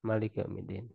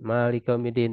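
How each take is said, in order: First: The first vowel of Malik is short. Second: The first vowel of Malik is long. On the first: "dibacanya Malik tanpa alif" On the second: "dengan alif yang kita baca"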